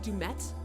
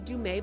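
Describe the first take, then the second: First: The name ends with a clear T sound. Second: The name ends without a T sound. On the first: "but you say that Dumet?" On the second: "his name is Dumais"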